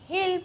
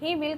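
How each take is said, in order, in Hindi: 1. यह एक संक्षिप्त, एक ही अक्षर वाले रूप में बोला जाता है। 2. यह दो पूरे शब्दों की तरह बोला जाता है। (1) "कॉन्ट्रैक्शन फॉर्म में हिल प्रोनाउंस किया है" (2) "ही विल को"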